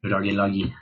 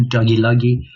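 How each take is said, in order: First: Said in the usual way. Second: Giggling over the silly name, louder; amused repeat of doggy loggy; laughing. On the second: Real, not acted.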